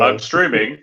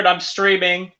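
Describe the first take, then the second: First: It is said in a deeper voice. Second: It is said in a normal voice.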